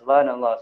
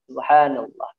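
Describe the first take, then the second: First: It is said fast and unclearly. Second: It is said slowly and clearly.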